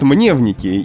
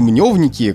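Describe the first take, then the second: First: The first syllable has a 'ye' vowel. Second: The first syllable has a 'yo' vowel. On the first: The speaker calls it wrong. "практически все говорят мневники" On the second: The speaker calls it right. "То, что они мневники, как я думаю, вообще мало кто уже помнит"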